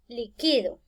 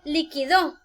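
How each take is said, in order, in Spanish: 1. El acento cae en la sílaba del medio. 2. El acento cae en la última sílaba. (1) "no le encuentro tilde por ninguna parte" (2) "llevan el acento o la tilde en la última sílaba"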